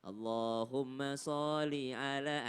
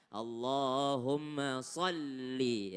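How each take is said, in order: First: SHOLLI with a single l, as so-li; wrong reading. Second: SHOLLI slow, with a doubled, held l; drawn-out ALLAHUMMA SHOLLI, sol-li; correct tasydid. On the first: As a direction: demonstrate the mistake, no doubling in SHOLLI. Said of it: "ah, itu salah". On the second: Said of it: "ya, ada tasydid". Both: Shown as a demonstration.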